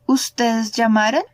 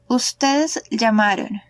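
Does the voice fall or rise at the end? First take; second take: rise; fall. First: The pitch rises at the end. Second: The pitch falls at the end. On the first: It is a question. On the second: It is a statement.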